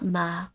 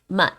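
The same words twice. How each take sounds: First: The vowel ends openly with no T closure. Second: The vowel ends with a held, unreleased T closure. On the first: The speaker calls it wrong. "it's not ma" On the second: The speaker calls it right. "Like you're about to say the T, but you don't say the T"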